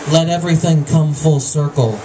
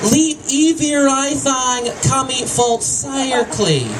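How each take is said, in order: First: The vowels are pronounced the usual way. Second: The vowels are swapped for different vowel sounds.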